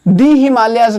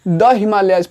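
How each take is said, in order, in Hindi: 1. 'The' को लंबे 'ee' स्वर से बोलते हैं। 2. 'The' को छोटे 'uh' स्वर से बोलते हैं। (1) "नहीं पढ़ेंगे आप" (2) "इसको द हिमालयाज पढ़ेंगे"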